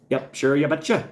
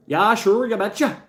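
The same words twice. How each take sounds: First: A light hint of a folksy Upper Midwest accent, lightly higher; mock Minnesota accent. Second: Much higher, louder, exaggerated Upper Midwest accent; "sure" stretched, go big and sing-song like a caricature; hammed-up Minnesota accent. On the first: Joking with chat, a lightly put-on Minnesota accent. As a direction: ease into a sing-song Minnesota "you betcha". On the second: Riffing for chat, a hammed-up high Minnesota accent.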